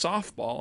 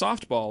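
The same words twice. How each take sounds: First: The T sound in the middle is dropped. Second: The T sound in the middle is clearly pronounced. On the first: "no one says the T. It's just softball" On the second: "Like there's a T there"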